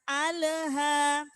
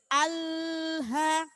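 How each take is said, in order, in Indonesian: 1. Bunyi L memantul seperti ada gema. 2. Bunyi L ditahan terlalu lama. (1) "Tidak boleh memantul juga. Jangan alha" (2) "tidak boleh ditekan terlalu lama. Tidak boleh alha"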